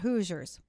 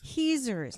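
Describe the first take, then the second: First: The first vowel sounds like 'oo'. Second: The first vowel sounds like 'ee'. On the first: The speaker calls it wrong. "not Hoosiers" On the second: The speaker calls it right. "Heezers, not Hoosiers"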